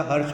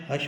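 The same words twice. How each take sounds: First: हर्ष with the r sounded before sh; correct pronunciation. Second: हर्ष with the r dropped; wrong pronunciation. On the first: Teacher corrects the common mistake, correctly pronounced. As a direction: say हर्ष as "harsh". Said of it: "हर्ष होता है". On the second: Teacher rejects the common mistake, mispronounced. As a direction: say हर्ष as "hash". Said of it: "हर्ष कुछ नहीं होता". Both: Shown as a demonstration.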